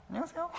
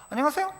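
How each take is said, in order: First: Swallowed, much softer half-hello; mumbled curt greeting. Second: Said in the usual way. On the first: Retold or imitated. Pastor mimics his own careless teenage greeting, mumbled. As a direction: toss off the hello barely voiced, just a quick nod. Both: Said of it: "이렇게 하더라는 거예요".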